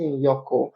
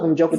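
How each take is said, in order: First: The consonant after N is a Y sound. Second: The consonant after N is a J sound. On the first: The speaker calls it wrong. "in German the J is pronounced as a Y" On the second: The speaker calls it right. "So instead of Njoko"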